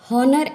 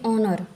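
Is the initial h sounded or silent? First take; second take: sounded; silent. First: The word begins with a sounded h. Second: The word begins with a vowel, h silent. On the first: The speaker calls it wrong. "हम इसका pronunciation हॉनर ऐसे नहीं करते" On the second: The speaker calls it right. "तो यहाँ पे यच हो गया साइलेंट"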